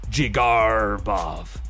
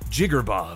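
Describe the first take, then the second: First: The R in the middle is drawn out like a pirate's. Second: The name is said quickly with a short R. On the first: "short jig, long R like a pirate, short bov" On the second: "Some people say short and sweet"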